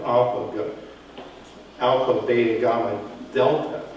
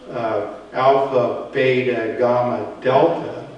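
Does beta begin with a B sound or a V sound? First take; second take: V sound; B sound. First: Beta begins with V, delta begins with TH. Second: Beta begins with B, delta begins with D. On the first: "They have the V sound. ... replaced it with the TH sound" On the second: "So instead of saying"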